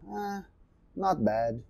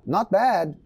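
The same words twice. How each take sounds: First: Reluctant. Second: Not bad said higher and louder, lively; upbeat. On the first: Teacher shows a meh not bad to students. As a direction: drag out a lukewarm not bad. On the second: Teacher shows a positive not bad to students. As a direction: say not bad brightly, like it's good. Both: Shown as a demonstration. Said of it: "depende da entonação".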